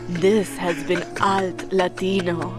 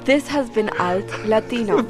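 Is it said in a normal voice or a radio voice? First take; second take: radio voice; normal voice. First: It is said in a put-on radio announcer voice. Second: It is said in her normal speaking voice.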